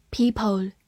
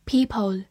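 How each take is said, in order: Both takes have the same delivery.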